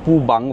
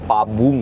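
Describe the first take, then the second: First: The second syllable has an 'a' vowel. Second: The first syllable has an 'a' vowel. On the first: "সেগুলো ঠিক নয়" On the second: "সেগুলো ঠিক নয়"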